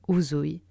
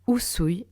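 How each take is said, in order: First: The middle consonant is a voiced Z sound. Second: The middle consonant is a voiceless S sound. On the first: The speaker calls it wrong. "et non uzui" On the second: The speaker calls it right. "Usui et non uzui"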